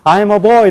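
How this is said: It is said with a Korean-style accent. The speaker calls it wrong. "처음에 I'm a boy 이렇게 읽는 사람이"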